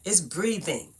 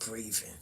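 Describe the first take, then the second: First: It's breathing with a clear th and the full ing; standard pronunciation. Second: Breathing said as brivin, the th as v and the final g dropped; breathing with a v sound, no final g; Brooklyn pronunciation. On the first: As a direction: say breathing the plain way. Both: Shown as a demonstration. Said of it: "That's how them people in Brooklyn talk".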